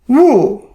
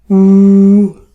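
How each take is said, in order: First: It is said with the fourth tone. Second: It is said with the first tone.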